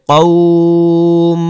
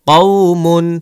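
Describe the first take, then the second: First: The word ends on a bare m sound. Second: The word ends with an -un sound. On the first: "অক্ফ করলে কওম" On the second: "মিম দুই পেশ মুন"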